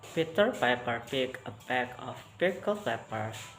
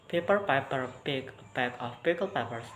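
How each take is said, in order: First: It is read at a normal speed. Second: It is read at a fast speed. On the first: "I will read the normal speed" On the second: "with quick or fast speed"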